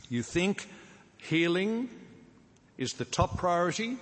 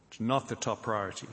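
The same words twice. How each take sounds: First: Raised, incredulous rhetorical question with "priority?" lifted high; preacher setting up a wrong idea, mock incredulous question. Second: Said in the usual way. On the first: Shown as a demonstration. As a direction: ask "You think healing is the top priority?" in a higher voice, as if the idea were absurd. Mock question he then denies.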